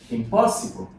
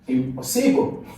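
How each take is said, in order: First: The stress is on the second syllable. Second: The stress is not on the second syllable. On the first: The speaker calls it right. "So this is the correct one" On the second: The speaker calls it wrong.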